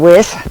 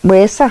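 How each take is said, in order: First: The word ends without the extra syllable. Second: The word ends with an extra final syllable. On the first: This is how native speakers actually say it. "we just say wes" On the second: This is the form taught nowadays. "they add that extra syllable in there"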